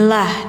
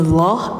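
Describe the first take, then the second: First: The L is thin, with a clear a vowel. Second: The L is thick, with a dark o-like vowel. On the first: "lafadz Allah yang bunyinya lah" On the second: "yang dibacanya tebal, bunyinya loh ya"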